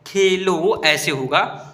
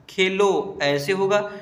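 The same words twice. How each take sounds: First: Khelo said slowly and louder, rising at the end; teacher restating Khelo with more force; louder repeat. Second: Khelo drawn out slowly, syllable by syllable; teacher dictating Khelo at a slow pace; slow spelling demo. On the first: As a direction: repeat Khelo firmly so the class catches it. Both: Shown as a demonstration.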